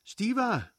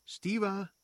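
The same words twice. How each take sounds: First: High, loud call with a falling end; calling out louder. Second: High-pitched call to a brother. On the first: Sister calls her brother a second time, loud high cry. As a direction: call harder, pitch leaping up then dropping. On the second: Sister calls to her brother Stiva, calling out high. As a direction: call out for someone, pitched well up. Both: A narrator's reading. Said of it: "rief sie den Bruder".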